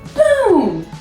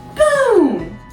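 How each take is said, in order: First: It is said in a high-pitched voice. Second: The same.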